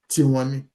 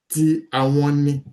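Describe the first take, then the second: First: The words are run together into one word. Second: The words are said separately in full. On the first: "But you say tiwani" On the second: "That is ti, that's the verb, plus àwọn"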